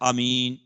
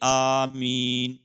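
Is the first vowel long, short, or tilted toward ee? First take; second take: short; long. First: The first vowel is kept short. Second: The first vowel is drawn out long. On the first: "قصر کے الف کو دراز نہ کرے" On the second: "مد کے الف کو کھینچ کر پڑھے"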